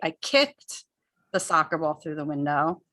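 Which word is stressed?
kicked. The word "kicked" is stressed and louder. The ball was kicked, not thrown. "emphasize the word kicked"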